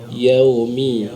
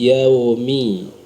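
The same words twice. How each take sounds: No difference in how they are said.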